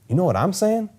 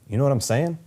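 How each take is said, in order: First: The word "I'm" carries strong emphasis. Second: The word "I'm" carries no special emphasis.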